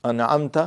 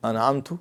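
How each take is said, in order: First: انعمت said with a short final a, an'amta; an'amta, you blessed. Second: انعمت said with a final u, an'amtu; an'amtu, I blessed. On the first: Teacher showing the correct انعمت ending in ta. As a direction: end انعمت on a clear ta sound. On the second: Teacher showing students the wrong انعمت ending in tu. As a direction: close انعمت on a rounded tu. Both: Shown as a demonstration. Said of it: "اگر آپ نے انعمت پڑھ لیا نا".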